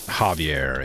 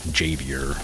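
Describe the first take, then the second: First: The name is said in its foreign way. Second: The name is said the American way. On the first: The speaker calls it right. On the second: The speaker calls it wrong.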